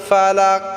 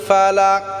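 No difference in how they are said.

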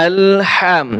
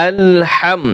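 Both takes have the same delivery.

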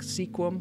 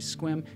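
First: The name is said in two syllables. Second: The name is said in one syllable. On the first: The speaker calls it wrong. "some people, they want to pronounce it Sequim because it looks like sequim when you write it out" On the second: The speaker calls it right. "but it's actually Squim"

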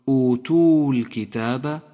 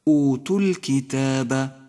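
First: The long u before al-kitab is pronounced. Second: The long u before al-kitab is dropped. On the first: The speaker calls it wrong. "ولا تقل ... فإن ذلك خطأ شائع" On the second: The speaker calls it right. "اقرأ هكذا"

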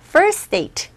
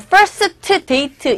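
First: The t at the end of first is weak or dropped. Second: The t at the end of first is clearly pronounced. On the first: The speaker calls it right. "t 사운드가 약하고요" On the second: The speaker calls it wrong. "first date로 들리는 것이 아니라"

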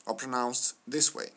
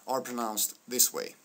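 No difference in how they are said.

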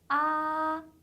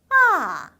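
First: The pitch stays high and level throughout. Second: The pitch slides sharply down from high. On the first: "높은 음에서 쭉 이어지는 음이에요" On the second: "떨어지는 음이에요. 쭉 미끄러져야 돼요"

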